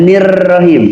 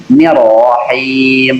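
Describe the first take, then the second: First: Nirrohim with a rolled rr; trilled nirrohim. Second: Nirrohim slowly drawn out with a brief r; bounced R. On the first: Teacher asking for a repeat, nirrohim with rolled r. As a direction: roll the r in nirrohim. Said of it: "Diulang sekali lagi". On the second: Teacher modelling for the student, Nirrohim slow and drawn out. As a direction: stretch the vowels of Nirrohim, keep the r brief. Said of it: "ujung lidah hanya memantul". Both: Shown as a demonstration.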